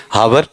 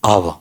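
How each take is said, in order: First: "हावर" with a sounded h at the start; mock mispronunciation. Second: "आव" low, with silent h and r; correct pronunciation. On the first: Teacher joking about learners like himself, mispronounced. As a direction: say "हावर", h and final r both pronounced. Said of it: "कुछ तो हैं ही मेरे जैसे, क्या पढ़ेंगे". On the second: Teacher giving the real pronunciation, correctly said. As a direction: say "आव", letting the final r drop away. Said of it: "अब ये इसका रियल उच्चारण बता दो". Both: Shown as a demonstration.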